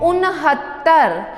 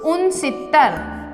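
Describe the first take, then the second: First: The middle consonant is an h sound. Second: The middle consonant is an s sound. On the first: The speaker calls it right. "इसे हिंदी में कहा जाएगा उनहत्तर" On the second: The speaker calls it wrong. "उनसत्तर बोलते हैं ... जो कि गलत है"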